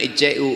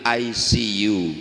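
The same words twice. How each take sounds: First: The letters are said with Indonesian letter names. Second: The letters are said with English letter names. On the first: The speaker calls it wrong. "Itu bacanya bukan I C U Ustadz" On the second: The speaker calls it right. "Ustadz Somad ini nggak bisa bahasa Inggris"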